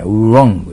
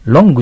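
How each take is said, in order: First: Wrong with rounded lips and an R, "oroŋgu"; Wrong with the lips pushed into an "u" shape; correct R sound. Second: Wrong said as "longu" with a Japanese L; Wrong as katakana "ロング"; wrong L sound. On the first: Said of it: "うの口をして顎を引かんといけん". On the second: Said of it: "Lの発音じゃない". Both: Shown as a demonstration.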